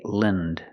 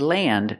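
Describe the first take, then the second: First: The vowel is a short, reduced 'lind' sound. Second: The vowel is a full, open 'a' sound. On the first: The speaker calls it right. "say land" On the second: The speaker calls it wrong. "don't say land"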